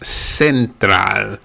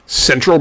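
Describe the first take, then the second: First: It is said with Spanish vowel sounds. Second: It is said with English vowel sounds.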